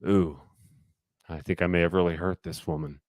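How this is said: It sounds dour and gloomy.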